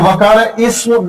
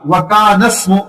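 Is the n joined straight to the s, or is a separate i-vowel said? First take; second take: separate i; joined. First: A separate i-vowel comes before the s. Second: The n runs straight into the s. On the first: The speaker calls it wrong. "वकान इसमु ना पढ़े आप" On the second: The speaker calls it right. "नून को सीन के साथ बराह रास्त पढ़िएगा आप"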